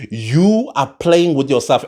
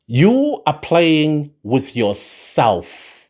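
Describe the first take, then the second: First: Said in the usual way. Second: Each word slowed right down and weighed; slow emphatic. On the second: Shown as a demonstration. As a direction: spell it out slowly, like a warning. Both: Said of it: "It's all that I'm going to say".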